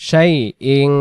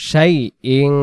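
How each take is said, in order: Both takes have the same delivery.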